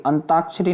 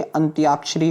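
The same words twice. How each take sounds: First: अंताक्षरी said "an-taak-shri", no y; wrong pronunciation. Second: अंत्याक्षरी said "ant-yaak-shri", with y; correct pronunciation. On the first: Teacher warns students, अंताक्षरी as "an-taak-shri". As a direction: leave y out of अंताक्षरी. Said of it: "अंताक्षरी नहीं होता बच्चे". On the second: Teacher corrects students, अंत्याक्षरी as "ant-yaak-shri". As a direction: sound the y in अंत्याक्षरी. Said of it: "इस बात का आप लोग ध्यान रखना". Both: Shown as a demonstration.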